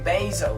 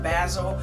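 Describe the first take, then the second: First: Basil is said in an American way. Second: Basil is said in a non-American way. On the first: People in America say it this way. "I'm from here from America, so we're gonna say basil" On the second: Other people say it this way. "Some people pronounce it basil"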